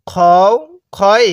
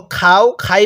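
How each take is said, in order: First: "খও", "খই" with rounded o after a heavy kh; correct rounded vowel. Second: "খাও", "খাই" with an open aa after kh; wrong vowel. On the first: Teacher models for learners to repeat, "খও", "খই" with rounded o. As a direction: recite "খও", "খই" as kho-u, kho-i. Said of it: "তাহলে কিভাবে পড়তে হবে?". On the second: Teacher shows a common mistake, "খাও", "খাই" with open aa. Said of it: "পড়াটা সহি শুদ্ধ হবে না". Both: Shown as a demonstration.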